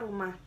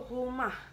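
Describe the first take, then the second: First: The first consonant is made with the tongue tip. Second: The first consonant is made in the throat. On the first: This is the standard national form. "Dalam bahasa Indonesia eh, kita menyebutnya rumah" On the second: This is the coastal regional dialect form. "R-nya tuh hilang ... R-nya itu berada di kerongkongan"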